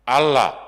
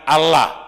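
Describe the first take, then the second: The two takes are said the same way.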